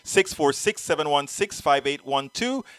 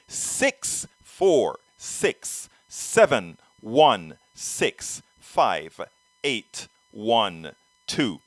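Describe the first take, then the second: First: The number is read at a normal pace. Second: The number is read at a slower pace.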